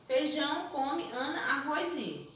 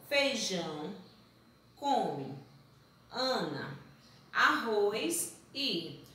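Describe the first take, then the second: First: Said as a sentence. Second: "Feijão... come... Ana... arroz e", long pause after each word; slow, separated word list. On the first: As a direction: run "feijão, come, Ana, arroz e" together without pauses. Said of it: "Se eu chego pra você e digo". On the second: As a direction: read the scrambled words one at a time. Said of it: "Tá vendo como fica sem sentido". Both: Shown as a demonstration.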